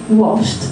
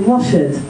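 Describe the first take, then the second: First: The word is said as one syllable ending in a T sound. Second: The word is said as two syllables with an added 'id' ending. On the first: The speaker calls it right. "So instead of washed" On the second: The speaker calls it wrong. "a very common mistake for students is to always add an extra syllable"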